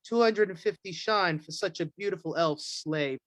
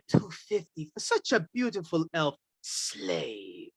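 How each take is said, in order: First: It is said in a plain, normal voice. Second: It is hissed in a sinister, cat-like voice.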